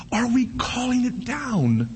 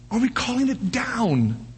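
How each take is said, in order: Both takes have the same delivery.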